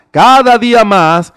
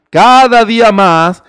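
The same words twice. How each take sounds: The two takes are said the same way.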